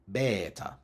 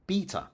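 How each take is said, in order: First: It follows the reconstructed ancient Greek pronunciation. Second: It follows the traditional Anglo-Latin pronunciation. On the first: It matches how ancient Greek is now reconstructed. "a closer match to the reconstructed ancient Greek pronunciation" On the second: It is the older pronunciation kept in the UK. "the older traditional Anglo-Latin pronunciation"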